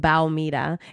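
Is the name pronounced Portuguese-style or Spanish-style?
Portuguese-style. The name is pronounced with Portuguese sounds. The speaker calls it right. "It's like very specific"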